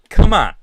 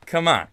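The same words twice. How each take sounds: First: A sudden loud, exasperated come on. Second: Said in the usual way. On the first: Real, not acted. Ribbing his old co-host Tim Pool, loud exasperated come on. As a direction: throw up your hands and bark come on.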